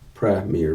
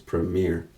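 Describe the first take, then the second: First: The stress is on the first syllable. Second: The stress is on the last syllable. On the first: "they put the emphasis at the beginning" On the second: "and put it at the end"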